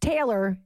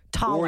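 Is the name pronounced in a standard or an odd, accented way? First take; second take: standard; odd. First: The name is pronounced in the standard way. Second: The name is pronounced in an odd, accented way. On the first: The speaker calls it right. "It's Taylor" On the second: The speaker calls it wrong. "he did say it weird. He called me Taller. I think he had an accent"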